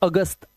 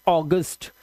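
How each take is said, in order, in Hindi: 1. पहला स्वर खुला 'ah' वाला है। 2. पहला स्वर गोल 'aw' वाला है। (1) "हिंदी में तो इसे अगस्त पढ़ते हैं, आ की आवाज" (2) "ये इंग्लिश का वर्ड है तो इसे आप पढ़ते हैं ऑगस्ट"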